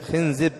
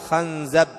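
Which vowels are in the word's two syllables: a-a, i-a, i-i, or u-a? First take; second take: i-i; a-a. First: The vowels are i then i. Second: The vowels are a then a. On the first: "وأيضا يجوز كسر الزاي" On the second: "ويجوز فتح الخاء"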